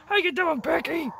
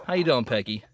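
First: Much higher, sing-song voice for the hen; high pet voice. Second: Said in the usual way. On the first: Real, not acted. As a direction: coo it up high like talking to a pet. Greeting her hen twice.

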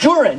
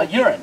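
First: "urine" with a hard j sound at the start, like "jurine"; dad's pronunciation. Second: Said in the usual way. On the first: Retold or imitated. Son quoting his dad, "urine" said as "jurine". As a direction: say "urine" as "JOR-in". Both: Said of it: "That's what he, my dad would".

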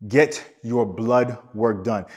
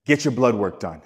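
First: Slow, word by word, Get stressed; a deliberate slowed-down warning; slow emphatic repeat. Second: Firm stress on Get, words said evenly; a coach insisting on Get your blood work done; emphatic command. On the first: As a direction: spell it out slowly so it sinks in. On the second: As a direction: drive the order home with Get punched. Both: Shown as a demonstration. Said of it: "So I'm going to emphasize this emphatically".

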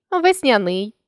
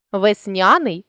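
First: Весняний with final НИЙ stressed; stress on last syllable. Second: Весняний with НЯ stressed; stress on middle syllable. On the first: Teacher shows a stress variant, весняний stressed on НИЙ. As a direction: land on НИЙ ending весняний. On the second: Teacher shows a stress variant, весняний stressed on НЯ. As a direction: lean on НЯ inside весняний. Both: Shown as a demonstration. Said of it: "наголосивши той чи інший склад".

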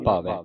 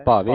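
First: ਭਾਵੈ ending on open "ai", falling. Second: ਭਾਵੇ ending on a close "e"; wrong "e" ending. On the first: Teacher correcting students, ਭਾਵੈ with final open "ai". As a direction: open the last vowel of ਭਾਵੈ. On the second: Teacher warning students of a misreading, ਭਾਵੇ with final "e". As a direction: close the last vowel of ਭਾਵੇ to "ay". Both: Shown as a demonstration. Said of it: "ਭਾਵੇ ਨਹੀਂ ਪੜ੍ਹਨਾ".

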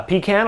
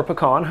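First: "pecan" said pee-CAN, with a long ee; "pecan" as pee-can, rhyming with "can". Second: "pecan" said puh-KAHN, stressed at the end; "pecan" as puh-kahn, open ah in the second syllable. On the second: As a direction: say "pecan" with a short first syllable, then "kahn". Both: Shown as a demonstration. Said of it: "depending on however you wanna say it".

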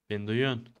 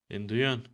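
No difference in how they are said.

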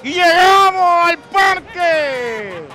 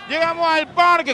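First: Announcer voice. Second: Said in the usual way. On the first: Real, not acted. Announcing arrival at the park.

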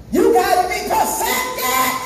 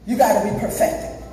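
First: High, slow, half-sung exhortation; preacher's cry. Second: Said in the usual way. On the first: Real, not acted. Preacher exhorts the church to perfection, high chanted cry. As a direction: raise it high and stretch every word. Preacher repeats line at full force.

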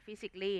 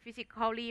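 First: "physically" as fi-sik-lee, softly; correct pronunciation. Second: "physically" as fi-sik-khaw-lee; wrong pronunciation. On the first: Teacher recapping for students, "physically" in three syllables, fi-sik-lee. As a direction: leave out the "-al-" in "physically". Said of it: "อ่าน physically". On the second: Teacher recapping what not to read, "physically" in four syllables, fi-sik-khaw-lee. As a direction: keep the "-cal-" syllable in "physically". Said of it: "ไม่อ่าน". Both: Shown as a demonstration.

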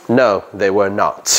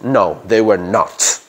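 First: Slow, "not" weighted firmly; emphatic not. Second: Slow, "they" and "not" weighted; firm, deliberate denial; emphatic not. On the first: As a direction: say it as a firm denial. (negación enfática y lenta) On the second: (énfasis lento) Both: Shown as a demonstration. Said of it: "Esto es más énfasis".

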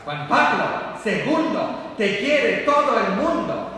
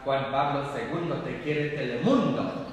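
First: High, loud, stretched-out chant; chanted, shout it like a crowd cheering a pope; imitated crowd chant. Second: Said in the usual way. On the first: Priest imitates Mexicans cheering Juan Pablo, loud crowd chant. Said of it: "los mexicanos siempre le gritaban". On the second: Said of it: "pensé ... que le gritaban".

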